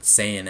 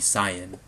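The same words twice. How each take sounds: First: The name is said the English way. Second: The name is said the Japanese way. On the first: The speaker calls it wrong. "that's how they think it should be pronounced in English" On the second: The speaker calls it right. "it actually should be Saiyan"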